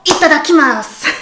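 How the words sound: It is said in a cute, playful way. "la forme la plus mignonne"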